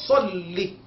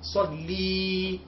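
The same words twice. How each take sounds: First: The final vowel is kept short. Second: The final vowel is drawn out long. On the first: The speaker calls it right. "il n'y a pas de prolongation" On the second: The speaker calls it wrong. "On n'a pas le droit de dire salli"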